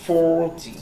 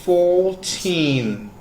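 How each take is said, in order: First: "forty" with a long, punched FOR and a light ty; stress on FOR. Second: Put-on "fourteen" pitched high with a long TEEN; stress on TEEN. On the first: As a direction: hit the first syllable of "forty", then drop off. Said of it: "you need to stress out on". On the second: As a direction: hold out the last syllable of "fourteen". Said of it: "the teen sound is, like, stressed out". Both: Shown as a demonstration.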